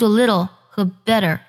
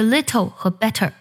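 First: The t sounds like a soft, quick d. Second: The t sounds like a clear, crisp t. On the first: The speaker calls it right. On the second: The speaker calls it wrong.

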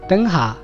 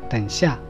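First: The second syllable begins with a velar sound. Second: The second syllable begins with a palatal sound.

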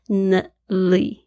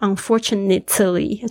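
First: The t sound is weakened and nearly dropped. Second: The t sound is pronounced clearly and slowly. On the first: "很口语的时候，很快速的时候，就是nly，这个t 呢好像弱化" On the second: "不会说unfortunately，除非你念得很慢"

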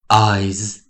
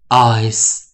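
First: It ends with a voiced z sound. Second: It ends with a voiceless s sound. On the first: "第二种我们讲发出有声，以及我们讲浊音" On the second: "第一种我们发出无声，我们讲轻音的"

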